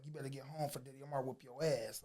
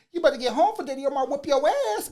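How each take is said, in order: First: Lower, softer quoted brother; low-key retold warning. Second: Loud, high, fast imitation of a taunting girl; mocking call-out. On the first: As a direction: pass on a warning quietly, retelling it. Brother relays the warning on court. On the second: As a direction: holler it teasingly, as from a car window. Girl shouts from car window, mocking.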